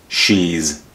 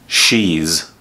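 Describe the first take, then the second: Both takes have the same delivery.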